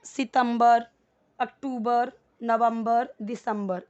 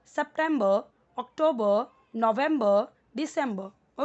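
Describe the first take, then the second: First: सितंबर said sitambar, अक्टूबर aktubar, Hindi-style months. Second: सितंबर said septembə, अक्टूबर oktobə, English-style months. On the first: Teacher showing how Hindi speakers say the months. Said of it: "हम हिंदी में कैसे बोलते हैं?". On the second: Teacher showing learners the English pronunciation. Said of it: "English में आपको बोलना है". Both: Shown as a demonstration.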